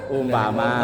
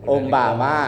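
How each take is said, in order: The two takes are said the same way.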